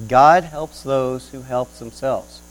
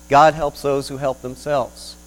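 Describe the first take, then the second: First: Slower, louder repeat of "God helps those who help themselves"; pondering repeat. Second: Slow, weighty quoting of "God helps those who help themselves"; quoted phrase. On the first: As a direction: weigh each word as you repeat it. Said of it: "interesting phrase if we think about it". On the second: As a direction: pronounce the saying slowly as a maxim. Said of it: "such as things such as". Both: Shown as a demonstration.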